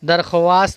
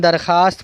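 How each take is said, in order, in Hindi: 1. kh के बाद w ध्वनि बोली जाती है। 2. kh के बाद w ध्वनि छोड़ दी जाती है। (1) "दरख्वास्त नहीं पढ़ेंगे" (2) "दरख्वास्त पढ़ेंगे"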